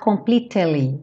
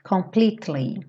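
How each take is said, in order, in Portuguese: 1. Uma vogal é pronunciada entre o t e o l. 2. O t passa direto para o som do l. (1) "Cuidado para não falar completely. Esse E depois do T não é pronunciado" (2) "pensa como se fosse T-L-Y"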